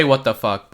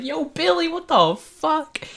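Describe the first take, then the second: First: Said in the usual way. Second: High, slow, stretched-out disbelieving call; shouting to Billy after his wild jump, high and drawn out; amazed call. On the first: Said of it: "I don't say". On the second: Retold or imitated. Calling after Billy jumping.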